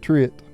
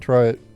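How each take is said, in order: First: The first syllable sounds like 'tree'. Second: The first syllable sounds like 'try'. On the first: The speaker calls it right. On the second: The speaker calls it wrong.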